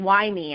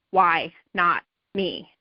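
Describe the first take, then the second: First: Said in the usual way. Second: "Why not me?" said very slowly, lower, each word given weight; slow the phrase "Why not me?" right down and plant it; slow emphatic mantra. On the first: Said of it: "stop asking". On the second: Shown as a demonstration. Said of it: "start asking".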